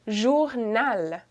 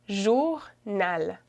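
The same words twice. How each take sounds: The two takes are said the same way.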